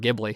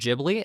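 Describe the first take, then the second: First: The word begins with a hard G sound. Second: The word begins with a soft J sound. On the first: "I think of it as a hard G" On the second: "some people will pronounce it Ghibli as well"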